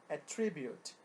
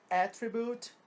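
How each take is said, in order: First: Attribute com força na segunda sílaba, atTRIbute; verb stress. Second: Attribute com força na primeira sílaba, ATtribute; noun stress. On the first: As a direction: acentue o meio de attribute. (attribute, verbo, tônica no meio) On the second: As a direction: acentue o início de attribute. (attribute, substantivo, tônica no começo) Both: Shown as a demonstration. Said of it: "A sílaba tônica na pronúncia é deslocada".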